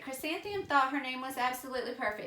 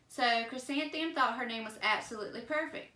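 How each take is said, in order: First: It is read quickly, rushing through. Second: It is read slowly and carefully. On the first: The speaker calls it wrong. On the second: The speaker calls it right.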